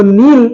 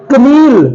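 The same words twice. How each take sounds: First: नील said "neel", k silent; correct pronunciation. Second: कनील said "ka-neel", k sounded; wrong reading demo. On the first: Teacher to class, giving the right reading. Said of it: "बल्कि ये नील है". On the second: Teacher to class, showing the wrong reading. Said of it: "कनील नहीं है". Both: Shown as a demonstration.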